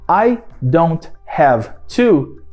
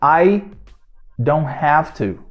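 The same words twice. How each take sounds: First: The words are said separately with small pauses. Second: The words are run together without pauses. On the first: The speaker calls it wrong. "ninguém fala I don't have to" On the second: The speaker calls it right.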